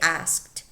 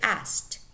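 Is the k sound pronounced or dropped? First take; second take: pronounced; dropped. First: The k sound is clearly pronounced. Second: The k sound is dropped. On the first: "You could say asked" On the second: "normally native speakers say asked, and the k disappears"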